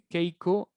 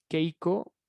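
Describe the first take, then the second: No difference in how they are said.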